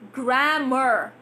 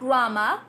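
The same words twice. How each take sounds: First: The word is said in an American accent. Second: The word is said in a British accent. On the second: "British pronunciation"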